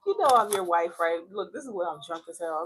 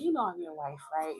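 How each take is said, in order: First: Louder, pleading You know I'm your wife; dramatic drunk plea. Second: Said in the usual way. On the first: Retold or imitated. Tipsy wife pleading with her husband on the phone, louder. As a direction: push it out like a tipsy wife begging. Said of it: "I sound a little dramatic". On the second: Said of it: "I'll be like".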